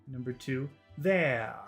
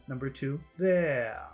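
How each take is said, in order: No difference in how they are said.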